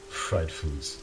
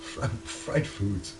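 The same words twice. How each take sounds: First: Fried foods said with a broad American drawl; a put-on American twang; mock American drawl. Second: Fried foods stretched slowly under the breath; whispered mock American; slow breathy American take. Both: Shown as a demonstration. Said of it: "come on".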